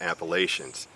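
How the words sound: It uses the northern regional pronunciation. "if you're from the northern part"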